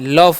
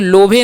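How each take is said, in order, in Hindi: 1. इसे एक छोटे अक्षर की तरह बोला जाता है। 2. इसे अक्षर-अक्षर करके, अंत में एक स्वर के साथ पढ़ा जाता है। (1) "लव पढ़ते हैं" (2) "लोभे नहीं"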